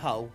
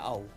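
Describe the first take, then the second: First: The word starts with a clear H sound. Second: The word starts without any H sound. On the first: "Not Hull" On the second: "Silent H"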